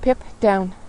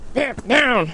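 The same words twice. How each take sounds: First: The command is said in a calm, gentle tone. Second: The command is said in a harsh, threatening tone. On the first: The dog is asked kindly, not threatened. The speaker calls it right. "You notice the tone there?" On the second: The dog is threatened into obeying. The speaker calls it wrong. "It's not Pip, down"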